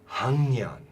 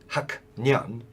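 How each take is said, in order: First: The first syllable ends with a nasal ng sound. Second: The first syllable ends with a k sound. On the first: The speaker calls it right. "So it becomes nasalized" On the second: The speaker calls it wrong. "you wouldn't say 학년"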